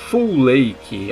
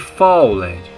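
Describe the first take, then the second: First: The name is said with two syllables, like 'full lake'. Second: The name is read with Portuguese spelling habits. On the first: "a pronúncia correta seja Full Lake, algo mais ou menos assim" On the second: "Se fosse em português"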